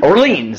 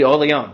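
First: The name is said with an American pronunciation. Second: The name is said with a French pronunciation. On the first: "you're American" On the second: "or French, it'll be Orleon"

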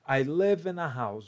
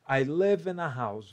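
First: The 'a' is a weak 'uh', linked smoothly. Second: The 'a' is a weak 'uh', linked smoothly.

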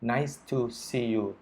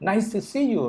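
First: It is said flatly, like a robot. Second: It is said warmly, with a smiling voice. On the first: The greeting is mechanical and not heartfelt. The speaker calls it wrong. "พูดแบบเหมือนกับหุ่นยนต์" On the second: The speaker is genuinely glad to see the person. The speaker calls it right. "แล้วก็ยิ้มด้วยแล้วก็มองไปที่คนนั้นด้วย"

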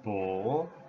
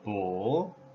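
First: The syllable carries the full third tone. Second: The same.

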